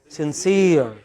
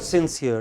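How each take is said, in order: First: The stress is on the second syllable. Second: The stress is on the first syllable. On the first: The speaker calls it right. "it is sincere" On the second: The speaker calls it wrong. "it is not sincere"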